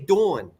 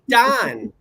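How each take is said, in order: First: The vowel is a rounded 'aw'. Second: The vowel is an open, unrounded 'ah'. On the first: This is how New Jersey people say it. "The people in New Jersey say Dawn" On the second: This is how upstate New Yorkers say it. "The people in upstate New York say Don"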